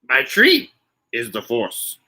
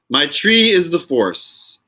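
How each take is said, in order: First: Spoken in a low, put-on character voice. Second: Spoken in the speaker's ordinary natural voice.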